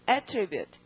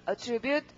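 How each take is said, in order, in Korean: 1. 강세는 첫 번째 음절에 있습니다. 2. 강세는 두 번째 음절에 있습니다. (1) "명사라면 맨 처음에 강세가 옵니다" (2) "동사일 때는 강세가 뒤에 오고"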